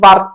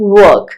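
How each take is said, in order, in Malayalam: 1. ഇത് v പോലുള്ള ശബ്ദത്തിലാണ് തുടങ്ങുന്നത്. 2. ഇത് ചുണ്ടുകൾ വട്ടത്തിലാക്കി പറയുന്ന w ശബ്ദത്തിലാണ് തുടങ്ങുന്നത്. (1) "വർക്ക് എന്നല്ല" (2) "work മനസ്സിലായോ"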